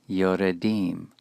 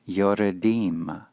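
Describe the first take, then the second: First: The schwa is voiced, giving three syllables. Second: The schwa is voiced, giving three syllables.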